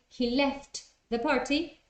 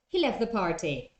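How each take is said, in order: First: The t at the end of left is pronounced. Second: The t at the end of left is dropped. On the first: The speaker calls it wrong. "So instead of saying" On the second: The speaker calls it right. "it's just"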